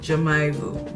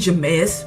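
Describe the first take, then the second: First: No s sound is pronounced after Jamais. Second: An s sound is pronounced after Jamais. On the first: The speaker calls it right. "because it's French and you're not supposed to pronounce it" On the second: The speaker calls it wrong. "I was saying Jameis because I didn't know how to say it"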